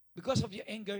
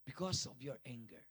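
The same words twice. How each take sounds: First: "Because" hit louder and higher, pulled out; stress on because. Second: Said in the usual way. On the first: Shown as a demonstration. Preacher warning the congregation, punching "Because".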